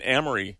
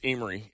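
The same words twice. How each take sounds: First: "Amory" with a short a, as in "am"; mispronounced Amory. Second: "Amory" with a long a, as in "aim"; local pronunciation of Amory. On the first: FEMA worker naming the town to a local, mispronouncing Amory. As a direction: say "Amory" starting like "ham" without the h. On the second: Resident correcting the FEMA worker, local pronunciation of Amory. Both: Retold or imitated. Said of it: "it's pronounced Amory".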